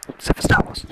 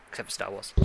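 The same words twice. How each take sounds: First: Forceful voiceless whisper; emphatic whispered repeat of an aside; loud stage whisper. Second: Softer, tossed-off aside; quiet aside. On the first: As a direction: whisper it hard and pointedly. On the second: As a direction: slip it in under your breath. Slips in a teasing aside. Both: Real, not acted.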